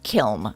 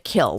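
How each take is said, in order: First: The word ends with an n sound. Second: The word ends without an n sound. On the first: This is how West Coast speakers say it. "on the West Coast, they seem to pronounce it kiln" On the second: This is how East Coast speakers say it. "on the East Coast, it's pronounced a kill"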